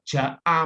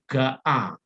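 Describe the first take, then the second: First: The word begins with a J sound. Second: The word begins with a hard G sound.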